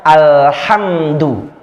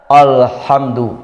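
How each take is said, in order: First: "alhamdu" with a plain light A, no darkening; light hamzah. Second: Mock the wrong reading, darkening the A; wrong heavy Alhamdu; heavy hamzah. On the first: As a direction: show the correct thin reading. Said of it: "harusnya a saja". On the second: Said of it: "malah dibaca tebal". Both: Shown as a demonstration.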